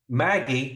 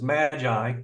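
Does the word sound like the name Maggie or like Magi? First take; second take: Maggie; Magi. First: It sounds like the name Maggie. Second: It sounds like the Christmas word Magi. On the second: "around Christmas time, I pronounce this Magi"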